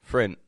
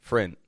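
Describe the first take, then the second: No difference in how they are said.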